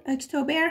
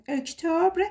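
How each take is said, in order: First: "اکتبر" as ek-to-ber; alternative pronunciation. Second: "اکتبر" as ek-tobr, no final vowel; drawn-out "اکتبر" with clustered -br ending; alternative pronunciation. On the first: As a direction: say "اکتبر" with a full -ber ending. («اکتبر» با تلفظ اِکتوبِر) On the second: («اکتبر» با تلفظ اِکتُبر) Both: Shown as a demonstration.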